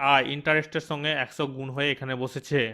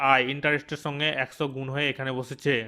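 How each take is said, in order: Both takes have the same delivery.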